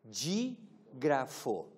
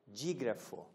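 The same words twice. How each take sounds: First: "dígrafo" stretched very slowly; very slow term. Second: Said in the usual way. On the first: Shown as a demonstration. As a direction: draw out "dígrafo" syllable by syllable. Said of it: "se chama de". ("dígrafo" bem arrastado)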